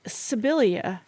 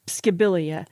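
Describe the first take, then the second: First: The name begins with a plain s sound. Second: The name begins with an sk sound. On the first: "but I think Sibilia makes sense" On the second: "I would have said skib, Skibilia"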